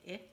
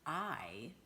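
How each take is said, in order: First: It is a short vowel, as in insect. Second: It is a long vowel, as in ice. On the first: "do the short I" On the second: "say I, its name"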